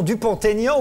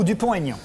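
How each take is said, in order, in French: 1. Le t fait la liaison avec Aignan. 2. Le t est muet devant Aignan.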